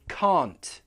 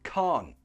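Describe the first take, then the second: First: The final T sound is clearly pronounced. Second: The final T sound is left off. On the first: "With the T" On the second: "Or without the T"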